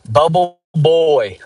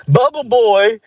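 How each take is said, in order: First: Slow, drawn-out higher taunt; mocking nickname. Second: High, loud taunting shout; mocking yell. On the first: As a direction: drag the nickname out like a teasing kid. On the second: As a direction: yell it across the track like a kid. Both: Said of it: "That's what people would just call me".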